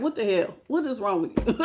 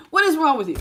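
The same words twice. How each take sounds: First: A hint of an exasperated scold, dipping softer; quietly asking what is wrong with you; mild mock scold. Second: Laughing. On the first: To a cocky person, a touch of mock exasperation. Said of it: "makes me wanna slap somebody and be like". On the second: Real, not acted. Repeating her own scolding, laughing it out. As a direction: crack up while repeating the question.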